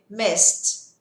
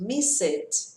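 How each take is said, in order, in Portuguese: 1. O final é só o som de T. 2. O final é uma sílaba extra. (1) "acrescento o som do T" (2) "Eu ouço muito miss it. Não tenho miss it"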